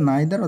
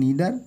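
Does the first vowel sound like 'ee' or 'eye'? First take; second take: eye; ee. First: The first vowel sounds like 'eye'. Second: The first vowel sounds like 'ee'. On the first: "উচ্চারণটা নাইদার অথবা নিদার দুটোই সই" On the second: "উচ্চারণটা নাইদার অথবা নিদার দুটোই সই"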